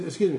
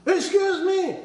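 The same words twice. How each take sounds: First: Said in the usual way. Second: High, indignant "Excuse me!"; raised voice. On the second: Acted. Cheated customer complaining to the store, raised voice. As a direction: pitch it way up, as if protesting. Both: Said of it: "don't raise your voice".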